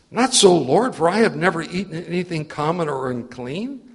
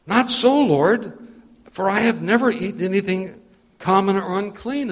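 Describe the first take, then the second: First: Loud, proud "Not so, Lord" that stays self-assured; boastful refusal. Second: Higher and louder, pleading refusal; alarmed loud protest. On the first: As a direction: refuse God with boastful pride. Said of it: "he'd said it in a boasting voice at the beginning". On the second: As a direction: cry out against the command. Peter refuses the voice again. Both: Acted.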